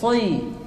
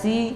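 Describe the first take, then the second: First: The s sound is heavy and thick. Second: The s sound is light and thin. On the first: The speaker calls it right. "shad ini tebal" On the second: The speaker calls it wrong. "Jangan sampai dibaca si"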